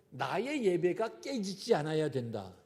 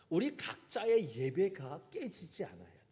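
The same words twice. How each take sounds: First: 나의 hit hard, rest falling away; stress on 나의. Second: 우리 pushed out first, then a falling line; stress on 우리. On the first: Pastor stressing 나의 to the congregation, emphatic. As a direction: lean on the word 나의. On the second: Pastor turning the point to everyone, stress on 우리. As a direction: put the weight on 우리. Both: Shown as a demonstration.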